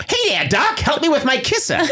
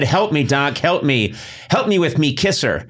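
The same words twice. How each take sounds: First: Put-on high, hammy old-timey Brooklyn tough guy; goofy 1930s Brooklyn accent, pitched way up. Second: 1930s Brooklyn guy. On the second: Pretend. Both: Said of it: "why am I talking like a nineteen thirties guy from Brooklyn?".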